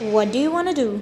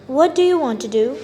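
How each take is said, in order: First: 'Want to' is reduced to a quick 'wanna'. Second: 'Want to' is said fully, both words clear.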